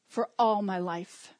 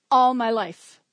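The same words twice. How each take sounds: First: All leaned on, said slowly; steady, slow stress on all. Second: ALL hit hard and loud; a loud opening beat on All; punched loud. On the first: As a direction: draw out for all my life with weight on all. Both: Shown as a demonstration.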